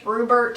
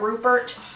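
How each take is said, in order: First: The middle consonant is a B sound. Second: The middle consonant is a P sound. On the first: This is how someone else mispronounces the name. The speaker calls it wrong. "Katie pronounces it with a B" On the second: This is the fish's real name. The speaker calls it right. "With a P, not a B"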